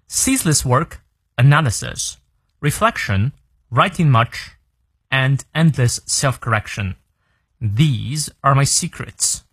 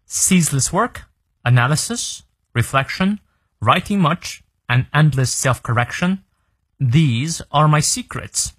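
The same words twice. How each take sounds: First: "analysis", "reflection", "self-correction" each fall, "secrets" drawn out; falling list intonation. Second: "work", "analysis", "reflection", "self-correction" rise, "secrets" falls slowly; rising list intonation. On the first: Teacher's second read-through, "analysis" and "reflection" falling. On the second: Teacher's first read-through, "work" and "analysis" left rising. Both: Shown as a demonstration.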